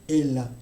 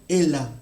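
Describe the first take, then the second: The two takes are said the same way.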